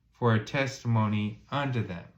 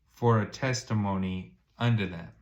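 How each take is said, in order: The two takes are said the same way.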